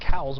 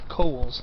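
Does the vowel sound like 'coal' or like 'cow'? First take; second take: cow; coal. First: The vowel sounds like the one in 'cow'. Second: The vowel sounds like the one in 'coal'. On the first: This is how many people say it. The speaker calls it wrong. "A lot of people pronounce it Cowles" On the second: This is how it is supposed to be said. The speaker calls it right. "it's supposed to be pronounced Coles"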